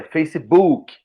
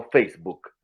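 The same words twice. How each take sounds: First: Facebook with an added vowel, "fay-see-BOO-kee"; Brazilianized pronunciation. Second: Said in the usual way. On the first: Shown as a demonstration. Podcast guest shows how Brazilians reshape the word, Brazilianized Facebook. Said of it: "a brasileirar as palavras". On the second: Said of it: "não Facebook".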